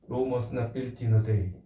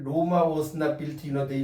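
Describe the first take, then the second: First: The first word is one syllable, like "Rome". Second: The first word is two syllables, like "Roma". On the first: The speaker calls it right. "영어로 읽을 때 롬이 나오는" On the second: The speaker calls it wrong. "영어 공부 좀 많이 해야 되겠구나"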